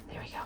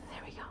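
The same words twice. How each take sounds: First: Said in the usual way. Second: Soft breathy whisper. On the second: Real, not acted. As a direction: whisper it under your breath. Repeats the phrase, now whispered.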